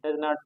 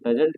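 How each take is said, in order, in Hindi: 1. यह दो अलग-अलग पूरे शब्दों के रूप में बोला जाता है। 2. यह एक संक्षिप्त शब्द के रूप में बोला जाता है। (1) "डज नॉट को" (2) "डजेंट कहते हैं"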